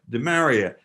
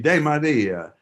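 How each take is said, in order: First: The name is said with American pronunciation. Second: The name is said with Italian pronunciation. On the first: This is the form the family adopted in the States. The speaker calls it wrong. "when they came to the states, people said" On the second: This is the original form of the name. The speaker calls it right. "Should be De Maria"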